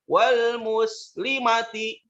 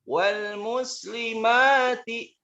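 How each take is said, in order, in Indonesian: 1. Vokal sebelum suku kata terakhir dibaca pendek. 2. Vokal sebelum suku kata terakhir dibaca panjang. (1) "Jangan dibaca" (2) "lagi-lagi ini pun dibaca panjang"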